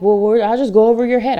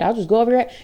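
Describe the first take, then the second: First: A lightly voiced snippy colleague; mocking threat. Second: A touch of snide mimicry, dropping off; mocking threat. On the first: Imitating pushy colleagues who threaten to go over her head, lightly mocking. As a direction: toss off the threat like a smug colleague. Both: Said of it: "other people who are like".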